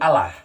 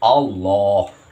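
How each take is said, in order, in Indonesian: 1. Huruf L-nya tipis dan tidak ditasydid. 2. Huruf L-nya tebal dengan vokal mirip O. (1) "tidak disidah, tidak ada tasjidnya, tidak ada sidahnya, dan tidak ditebalkan" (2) "harus dibaca dengan tebal, yaitu dengan kata hurufnya yaitu O"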